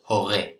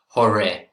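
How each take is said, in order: First: The r is made at the back of the throat. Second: The r is a soft English-style r. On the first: The speaker calls it right. "we're going to try and get that r" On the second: The speaker calls it wrong. "we don't really want to say hore, hore. It doesn't sound so good"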